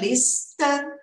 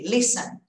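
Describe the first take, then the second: First: The T sound is pronounced in the middle. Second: The T sound is left out entirely. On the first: The speaker calls it wrong. "Dá uma vontade de falar, né?" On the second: The speaker calls it right. "Tira esse T"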